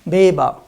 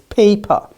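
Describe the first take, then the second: First: The word begins with a voiced B sound. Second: The word begins with a voiceless P sound. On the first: The speaker calls it wrong. "If you say beba, it will be like beba. Beba doesn't, it's not correct" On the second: The speaker calls it right. "It's paper"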